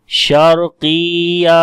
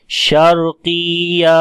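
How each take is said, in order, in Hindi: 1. 'या' अक्षर पर ज़ोर नहीं है, उसे लंबा खींचा जाता है। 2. 'या' अक्षर पर ज़ोर नहीं है, उसे लंबा खींचा जाता है।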